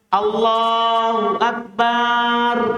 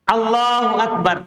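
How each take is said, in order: First: The vowel after the b is long. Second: The vowel after the b is short. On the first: It means God is drums. The speaker calls it wrong. "Kalau dipanjangkan akbar, beda artinya" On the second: It means God is the greatest. The speaker calls it right. "Tapi Akbar tidak boleh panjang"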